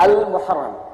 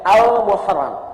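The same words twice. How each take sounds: Both takes have the same delivery.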